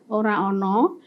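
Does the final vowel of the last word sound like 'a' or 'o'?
o. It is said in the Solo-Jogja dialect, ending in 'o'. "Kalau misalnya Solo Jogja mengatakan"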